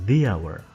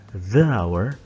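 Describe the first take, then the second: First: The article is said with a long 'thee' sound. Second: The article is said with a short 'thuh' sound. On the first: The speaker calls it right. "So that's why we can pronounce it with the hour" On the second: The speaker calls it wrong. "tidak dibaca dengan the hour"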